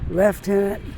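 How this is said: The first syllable has an F sound. This is the Canadian way of saying it. "we say lieutenant ... it hasn't got an F in it, but we pronounce it lieutenant"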